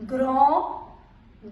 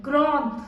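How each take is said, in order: First: "grand" with silent final d; masculine pronunciation. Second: "grande" with sounded final d; feminine pronunciation. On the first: Teacher modelling the masculine form, "grand" without final d. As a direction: end "grand" on a nasal vowel. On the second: Teacher modelling the feminine form, "grande" with final d. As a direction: close "grande" on its consonant, falling. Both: Shown as a demonstration.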